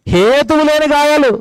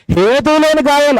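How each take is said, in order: First: Slow, leaning hard on హేతువు; stress on హేతువు. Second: హేతువు లేని with weight moved to లేని; stress on లేని. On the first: Preacher pressing the Bible phrase on drinkers, హేతువు stressed. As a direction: lean on హేతువు and draw it out. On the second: Preacher repeating the phrase, now hitting లేని. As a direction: push the word లేని. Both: Shown as a demonstration. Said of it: "ఎంత బాగా రాశాడు చూసారా Bible".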